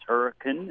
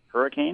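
First: The last syllable is reduced and short. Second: The last syllable is a full 'cane'. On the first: This is how locals say the town name. The speaker calls it right. "why it's pronounced hurricane" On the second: This is how outsiders read the town name. The speaker calls it wrong. "instead of hurricane, the way it's spelled"

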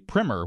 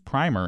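First: The first vowel is a short i sound. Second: The first vowel is a long i sound. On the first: "the American pronunciation is generally primer" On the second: "the British pronunciation is primer"

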